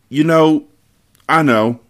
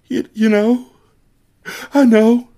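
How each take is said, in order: First: The voice is steady and normal. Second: The voice is light and cracking.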